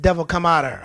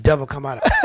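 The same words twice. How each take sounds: First: Forceful shout at the devil; shouted command. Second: Laughing command. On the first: Pastor shouts at demon to leave. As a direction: order it out. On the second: Pastor laughs mid-command at demon. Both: Retold or imitated.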